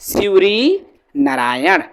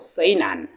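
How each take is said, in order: First: The name is said in its full form. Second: The name is said in a reduced form. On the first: This is the standard way of saying it. "शिवरी नारायण नाम सुने हो" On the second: This is how locals say it. "आसपास के रहने वाले लोग क्या बोलते हैं"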